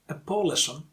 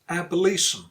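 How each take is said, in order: First: The stress falls away from the 'li' syllable. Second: The stress falls on the 'li' syllable. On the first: The speaker calls it wrong. "So it's not abolition" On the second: The speaker calls it right. "you stress li because that's the second to last syllable"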